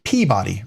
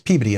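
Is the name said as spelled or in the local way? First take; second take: as spelled; local way. First: It is pronounced just as it is spelled. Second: It is pronounced in the local, unspelled way. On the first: This is how outsiders say it. The speaker calls it wrong. "Everybody looks at it and they want to pronounce it Peabody" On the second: This is how locals say it. The speaker calls it right. "But it's Peabody up there"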